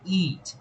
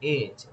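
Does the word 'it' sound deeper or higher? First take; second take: higher; deeper. First: The vowel sounds higher and thinner. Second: The vowel sounds a little deeper. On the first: The speaker calls it wrong. "o som não é it" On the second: The speaker calls it right. "é it, é um pouco mais grave"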